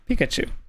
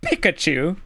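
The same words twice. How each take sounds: First: The P is released with a soft burst. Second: The P is released with a harsh burst. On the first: The speaker calls it right. "you have to learn how to soften your P sounds" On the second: The speaker calls it wrong. "instead of saying"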